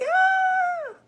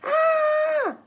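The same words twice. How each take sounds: First: High startled scream, loud; kid's scared yelp. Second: High loud yelp, cartoonish; a startled little kid's cry; not a scream. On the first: Retold or imitated. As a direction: shriek like a frightened little kid. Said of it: "I was like". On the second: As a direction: kid insists it was no scream. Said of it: "It wasn't a scream".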